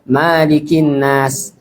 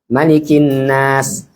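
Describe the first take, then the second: First: The first vowel of malikin is drawn out long. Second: The first vowel of malikin is kept short. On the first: The speaker calls it wrong. "dia panjangkan di An-Nas" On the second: The speaker calls it right. "maknya pendek"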